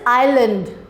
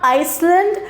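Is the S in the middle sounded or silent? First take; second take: silent; sounded. First: The middle S is silent. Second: The middle S is sounded. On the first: The speaker calls it right. "This is island" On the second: The speaker calls it wrong. "This is not Iceland"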